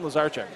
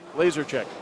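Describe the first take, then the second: First: The surname sounds like Lazar-chek. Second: The surname sounds like the words laser chick. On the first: It is the form for a male family member. "The husband, Lazarchek" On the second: It is the form for a female family member. "For a girl, it should be Laser Chick"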